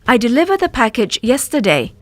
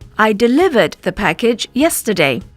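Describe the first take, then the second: First: Some sounds in the words are left out. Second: All sounds in the words are pronounced. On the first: The speaker calls it wrong. "We might omit sounds from a word" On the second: The speaker calls it right. "instead of"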